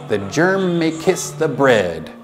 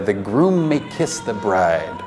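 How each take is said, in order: First: The words come out as germ and bread. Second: The words come out as groom and bride. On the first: The speaker calls it wrong. "his pronunciation was so bad" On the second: The speaker calls it right. "you're supposed to say"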